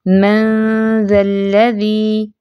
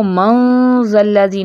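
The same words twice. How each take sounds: First: मंजल्लज़ी slow with a thin, light ghunna; light ghunna ikhfa. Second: मंजल्लज़ी with a thick heavy ghunna, the wrong way; over-heavy nasal in मंजल्लज़ी. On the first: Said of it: "इख्फा मोटा नहीं करेंगे". (मंजल्लज़ी बारीक गुन्ना) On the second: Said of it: "नहीं करना". (मंजल्लज़ी मोटा गुन्ना, गलत) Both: Shown as a demonstration.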